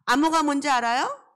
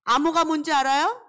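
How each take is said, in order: First: Louder rising question again to the class; loud call repeated. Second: Louder, rising question to the class; loud call to kids. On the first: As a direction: ask the class once more, out loud. (아이들에게 다시 크게 묻기) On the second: (아이들에게 크게 묻기) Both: Shown as a demonstration.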